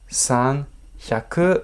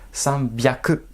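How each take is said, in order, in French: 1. La deuxième partie commence par un son h. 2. La deuxième partie commence par un son b. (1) "eh ben non" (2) "prononciation exceptionnelle"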